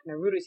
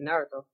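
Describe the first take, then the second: First: The name is said with English-style pronunciation. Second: The name is said with Japanese-style pronunciation. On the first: The speaker calls it wrong. "Rather than saying" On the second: The speaker calls it right. "if you can pronounce properly"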